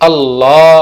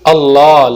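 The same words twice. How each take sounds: Both takes have the same delivery.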